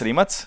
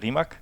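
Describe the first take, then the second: First: The name is pronounced the native Croatian way. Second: The name is pronounced the way Germans said it. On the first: This is how it is said at home. "in Croatia, it's Rimac" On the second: This is how foreigners who found it hard said it. "when I was in Germany, they couldn't say Rimac, so I was Rimac"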